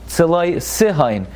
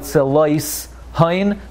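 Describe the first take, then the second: First: The s opens a new syllable with a vowel. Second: The s closes the syllable before it, silently. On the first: The speaker calls it right. "It's a Shvana. Si" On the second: The speaker calls it wrong.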